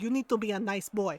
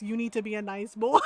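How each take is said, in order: First: Retold scolding mom. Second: Amused mom quote. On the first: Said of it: "She's like". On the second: Retold or imitated. Repeats mom's line, cracking up.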